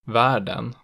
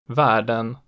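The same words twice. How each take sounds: First: The pitch rises into a later peak. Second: The pitch peaks immediately at the start. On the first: "in accent 2, the pitch rises into a peak on the stressed vowel" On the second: "The peak in accent 1 is immediate"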